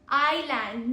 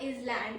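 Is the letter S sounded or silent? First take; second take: silent; sounded. First: The S is silent in the word. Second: The S is sounded, splitting the word. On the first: The speaker calls it right. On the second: The speaker calls it wrong. "not is land"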